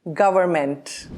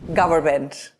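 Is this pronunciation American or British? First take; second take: American; American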